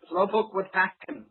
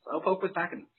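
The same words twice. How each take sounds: First: Slowpoke stressed, falling tune at the end; first word Slowpoke carries the weight. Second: Was stressed, said softer overall; a quieter take that punches was. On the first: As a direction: lean on Slowpoke and let it drop. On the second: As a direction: lean on was as if insisting. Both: Shown as a demonstration.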